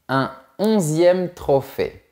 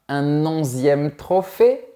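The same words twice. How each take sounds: First: The words are said without a linking consonant. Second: A linking consonant joins the words. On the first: The speaker calls it right. "on dit" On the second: The speaker calls it wrong. "On ne dit pas"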